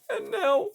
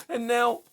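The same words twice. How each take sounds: First: Much higher, breaking wail on and now; anguished peak. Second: High, tearful first cry; anguished. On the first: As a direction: let the voice break high on the repeat. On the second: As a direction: start the cry, still contained. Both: Acted. Repeated in rising anguish.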